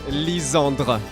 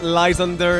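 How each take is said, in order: First: The name ends in a French 'dre' sound. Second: The name ends in an English 'der' sound. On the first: The speaker calls it right. "it's very hard to pronounce the dre, but it's Lysandre" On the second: The speaker calls it wrong. "It's not Lysander"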